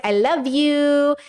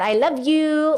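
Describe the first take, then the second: First: Drawn-out cute I love you. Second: Cute pet-talk I love you. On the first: Telling a best friend I love you, slow and cute. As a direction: stretch it out sweetly, like to a cat. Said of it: "to my best friend". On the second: Talking to the cat, light cute affection. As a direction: say it sweetly like to your cat. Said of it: "the same kind of way I talk to my cat". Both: Pretend.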